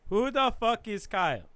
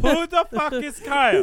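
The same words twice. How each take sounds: First: Insistent louder repeat; 1 louder demand. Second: High, loud shout of the question. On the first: To the group, louder insistent demand. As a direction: demand it again, pushing harder. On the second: To the group, shouted demand. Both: Real, not acted.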